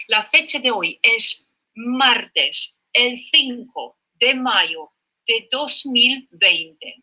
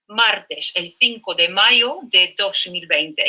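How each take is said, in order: First: Slow dictation. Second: Said in the usual way. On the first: Shown as a demonstration. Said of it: "dictating the date". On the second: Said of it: "repeats the date".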